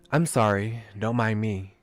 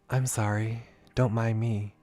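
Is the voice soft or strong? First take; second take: strong; soft. First: The voice is fuller and less soft. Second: The voice is softer and gentler.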